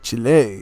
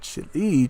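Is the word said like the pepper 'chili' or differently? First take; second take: differently; like pepper. First: It does not sound like the pepper name. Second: It sounds like the pepper name chili. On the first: The speaker calls it right. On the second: The speaker calls it wrong. "not Chile"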